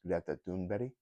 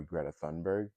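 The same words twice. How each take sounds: First: Greta Thunberg said the Swedish way; native Swedish pronunciation. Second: Greta Thunberg said the American way; American mispronunciation. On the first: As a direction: say Greta Thunberg with authentic Swedish sounds, not Americanized. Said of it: "really her name is pronounced". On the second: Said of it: "a lot of Americans mispronounce her name". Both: Shown as a demonstration.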